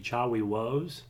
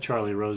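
First: The R sounds are pronounced like W. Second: The R sounds are pronounced as normal R. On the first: "pronounce your R's as W's" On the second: "if you said Charlie Rose"

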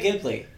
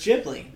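First: It begins with a hard G sound. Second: It begins with a soft J sound. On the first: The speaker calls it wrong. "I used to say Ghibli" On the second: The speaker calls it right. "Apparently, it's a soft J"

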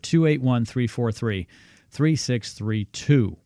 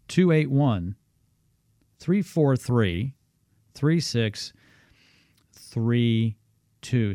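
First: The number is said at a normal pace. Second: The number is said more slowly.

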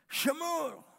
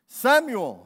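First: The name starts with an 'sh' sound. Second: The name starts with an 's' sound.

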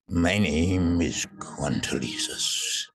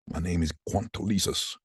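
First: It is said in a dramatic character voice. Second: It is read plainly, puzzled, off the script.

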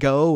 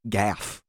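First: The name ends without an f sound. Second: The name ends with an f sound. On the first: The speaker calls it wrong. "which I was saying go or gah or whatever" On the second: The speaker calls it right. "It's Gaff"

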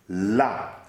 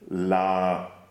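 First: The vowel is clipped short and accented. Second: The vowel is plain and somewhat longer. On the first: It indicates a position, there. "la with the accent on the A is to indicate a position" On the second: It is the article meaning the. "la like article"

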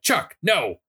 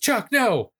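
First: It sounds like scolding a misbehaving dog. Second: It is a plain alarmed exclamation.

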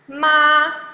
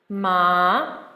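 First: The pitch stays high and level. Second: The pitch rises from middle to high. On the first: "first tone, remember, blue and flat like the sky" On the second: "second tone. Remember to think of green, the green plant growing up, going upwards"

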